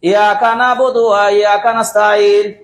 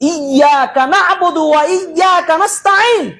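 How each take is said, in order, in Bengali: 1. iyaka শব্দের y ধ্বনিটি সংক্ষিপ্ত, একক। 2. iyyaka শব্দের y ধ্বনিটি দ্বিত্ব করে পড়া হয়। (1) "তাসদিদ ছাড়াই" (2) "এই সাদ্দা তাসদিদ সহ উচ্চারণ"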